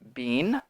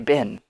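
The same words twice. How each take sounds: First: The vowel is full and long. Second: The vowel is reduced, short and quick. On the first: The speaker calls it wrong. "we do not say been" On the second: The speaker calls it right. "much shorter, much faster"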